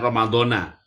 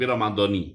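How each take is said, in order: First: The word ends with an 'a' vowel. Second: The word ends with an 'i' vowel. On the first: The word stands alone, not tied to this year. The speaker calls it wrong. "Bukan Ramadhana" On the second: The word is tied to this year's Ramadan. The speaker calls it right. "tapi Ramadhani ya"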